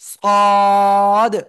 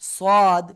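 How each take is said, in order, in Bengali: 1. স্বরটি খুব লম্বা করে টানতে হবে। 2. স্বরটি ছোট করে কেটে বলতে হবে। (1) "এটাই চার আলিফ টেনে পড়তে হবে।" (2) "অনেকে বলে এরকম সাদ, সাদ, এরকম বলা যাবে না।"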